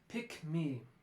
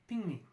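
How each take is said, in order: First: The k sound is kept before 'me'. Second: The k becomes an ng sound before 'me'. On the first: The speaker calls it right. "help your students to produce these consonant clusters like pick me" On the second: The speaker calls it wrong. "rather than ping me"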